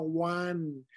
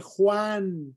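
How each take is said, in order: First: "Juan" as softer American WAHN; anglicized pronunciation. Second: Said in the usual way. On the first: Shown as a demonstration. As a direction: say "Juan" with w, no Spanish j. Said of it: "no Juan". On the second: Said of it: "Se dice Juan".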